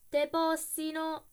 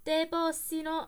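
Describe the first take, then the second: First: Loud, slow, higher curse; cursing. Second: Loud, slow, higher curse; cursing again. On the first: Coachman cursing the dead man, slow loud curse. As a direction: drag the Roman curse out in fury. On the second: Coachman cursing the latecomer, slow loud curse. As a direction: hurl the curse at him in fury. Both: A narrator's reading. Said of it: "esclamò tra i denti".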